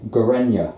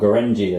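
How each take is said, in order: First: The final syllable starts with a Y sound. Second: The final syllable starts with a J sound. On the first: The speaker calls it right. "it's pronounced as a Y, like Y" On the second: The speaker calls it wrong. "A lot of people say that when they first came out. Gorenji, they say"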